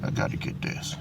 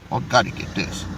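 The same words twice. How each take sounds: First: Whispered, no voice at all. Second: Low and quiet, said to himself; quiet mutter. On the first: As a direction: breathe "I gotta get this" as a pure whisper. Repeats it to himself. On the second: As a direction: mutter it under your breath. Muttering while grabbing clip. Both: Real, not acted.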